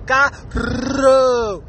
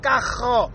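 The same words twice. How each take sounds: First: "Carro" with a long, exaggerated trilled R; rolled R. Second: "cajo" with the R as a guttural throat scrape; throaty R. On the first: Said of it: "I'm rolling my R's perfectly". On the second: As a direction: say "cajo" as if about to spit. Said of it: "you're about to fucking spit something". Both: Shown as a demonstration.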